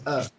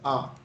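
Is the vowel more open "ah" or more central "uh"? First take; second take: uh; ah. First: The vowel is a central "uh" sound. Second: The vowel is an open "ah" sound. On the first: This is how the English say it. "England say uh" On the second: This is how Americans say it. "Americans say ah"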